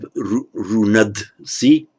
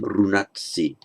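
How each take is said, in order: First: A voiced d sound comes before si. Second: A voiceless t sound comes before si. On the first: The speaker calls it wrong. "You can't have runad si" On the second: The speaker calls it right. "That has to become runat si"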